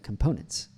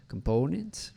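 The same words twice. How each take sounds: First: COMPONENTS with an American o and reduced vowels; everyday English COMPONENTS, schwa in weak syllables; English pronunciation. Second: COMPONENTS pitched up with a Portuguese o in PO. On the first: Shown as a demonstration. Coach models the English way to say COMPONENTS. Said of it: "rather than, like". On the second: Retold or imitated. Coach imitates the learner, Portuguese o in COMPONENTS. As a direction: imitate COMPONENTS with a held foreign o. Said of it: "sounds like a Portuguese o".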